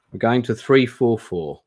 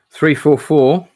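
First: Said in the usual way. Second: Page number called out loud and high; excited callout. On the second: Real, not acted. Streamer calling out a page number, loud and eager.

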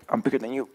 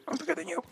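First: Said in the usual way. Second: Much higher, squeaky mock threat. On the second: Shown as a demonstration. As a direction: squeak it like a tiny tough guy.

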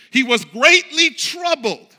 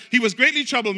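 First: Greatly leaned on, slow and weighty; stress on greatly. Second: Said in the usual way. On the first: Shown as a demonstration. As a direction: linger on "greatly", land it hard. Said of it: "Watch the next word". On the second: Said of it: "It says".

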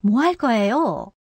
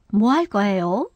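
First: 뭐 할 거예요? starts high and glides gently down to the end; high start, falling tune. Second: 뭐 할 거예요? starts low and climbs gently to a rise on 요; low start, rising tune. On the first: Teacher demonstrating the falling question tune to learners. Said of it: "高く始まって緩やかに下がるか". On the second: Teacher demonstrating the rising question tune to learners. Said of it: "低く始まって緩やかに上がります". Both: Shown as a demonstration.

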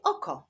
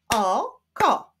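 First: Said in the usual way. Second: "Oko" split as o, ko, both beats loud; syllable by syllable. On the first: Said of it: "Wyklaszczmy sylaby w wyrazie". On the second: Shown as a demonstration. Teacher showing syllables to pupils, "Oko" split in two. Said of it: "Wyklaszczmy sylaby w wyrazie oko".

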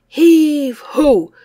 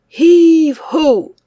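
No difference in how they are said.

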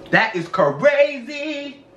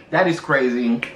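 First: "crazy" stretched out slowly and pitched up; drawn-out emphasis. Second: Said in the usual way. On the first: Shown as a demonstration. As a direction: drag out "crazy" into long, higher syllables. Repeats it drawn out for effect.

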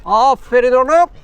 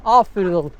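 First: Higher, louder, drawn-out praise for a good dog. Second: Said in the usual way. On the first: Real, not acted. Cyclist loudly praising the dog running beside him, slow and high. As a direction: cheer the dog on like a proud owner.

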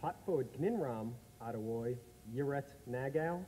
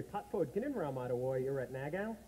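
First: "Gninram" and "Nagao" said slower and drawn out; the reversed greeting again, taking it slowly; backwards talk, slower. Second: The greeting spoken letter by letter reversed; backwards talk. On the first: Asked to repeat, says the reversed greeting slowly. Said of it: "Say that again". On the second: Backwards greeting for Terry Wogan. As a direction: top of the morning said backwards. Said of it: "You know what that is?". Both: Shown as a demonstration.

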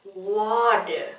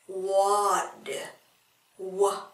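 First: Said in the usual way. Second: Water whispered, no voice; whispered echo of water; whispered repeat. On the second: Shown as a demonstration. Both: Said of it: "ở đây chúng ta đọc là wa".

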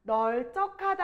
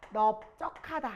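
First: 널쩍하다 slowly, with "neol" first; wrong pronunciation. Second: 넓적하다 slowly as "neop-jjeo-ka-da"; correct pronunciation. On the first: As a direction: keep an l in 널쩍하다, "neol-jjeo-ka-da". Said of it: "아니라". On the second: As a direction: stop on p in 넓적하다, no l. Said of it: "이렇게 읽을 거예요". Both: Shown as a demonstration.

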